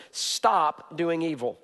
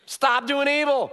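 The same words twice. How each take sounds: First: Slow emphasis. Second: High, loud, slow preached command; louder, clearer. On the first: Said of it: "he's gonna give us is this". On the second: Pastor answering a mock request to be clearer, loud and high. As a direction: hammer it home so nobody misses it. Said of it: "could you be a little more clear". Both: Shown as a demonstration.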